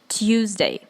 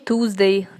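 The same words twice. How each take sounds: First: It begins with a softened t before u. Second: It begins with a plain hard t and u. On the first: The speaker calls it right. "как будто мягкий знак и U соединяйте" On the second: The speaker calls it wrong. "Не Tuesday, да, как многие говорят"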